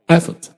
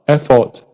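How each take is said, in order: First: The unstressed vowel is reduced to uh. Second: The unstressed vowel is said as a full vowel. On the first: The speaker calls it right. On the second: The speaker calls it wrong.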